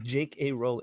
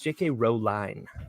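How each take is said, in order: First: The surname ends with an 'ing' sound. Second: The surname ends with a 'line' sound. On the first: The speaker calls it wrong. "My name is not J K. Rowling" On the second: The speaker calls it right. "rhymes with blow line"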